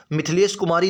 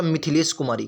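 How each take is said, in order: First: मिथिलेश clipped to two syllables, "Mith-lesh"; wrong pronunciation. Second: मिथिलेश in three syllables, "Mi-thi-lesh"; correct pronunciation. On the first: Teacher showing students the faulty form, मिथिलेश said wrongly as "Mithlesh". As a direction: say मिथिलेश as "Mithlesh", dropping the short i after th. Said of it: "नहीं होता". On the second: Teacher giving students the correct form, मिथिलेश said as "Mi-thi-lesh". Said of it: "शुद्ध होता". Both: Shown as a demonstration.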